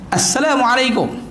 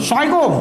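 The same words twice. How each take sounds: First: The greeting is pronounced carefully, every sound clear. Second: The greeting is pronounced distorted, sounds altered. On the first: The speaker calls it right. "itu itu sebutan yang betul" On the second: The speaker calls it wrong. "jadi lain bunyi dia. Makna tak ada"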